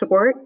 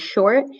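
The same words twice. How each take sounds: First: The 'sh' sound is slushy, with air escaping sideways. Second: The 'sh' sound is clear and normally made. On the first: "like a lateral lisp, like if someone said like um" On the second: "instead of"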